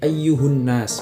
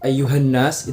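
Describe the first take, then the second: First: The vowel after ayyuh is u. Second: The vowel after ayyuh is a. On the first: This is the form in one tribe's dialect. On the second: This is the usual form.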